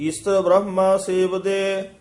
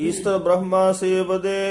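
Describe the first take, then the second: Both takes have the same delivery.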